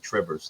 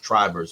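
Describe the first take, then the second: First: The first vowel is a short i sound. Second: The first vowel is a long i sound. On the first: The speaker calls it wrong. "everybody calls me Trivers" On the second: The speaker calls it right. "it's Trivers with a long I"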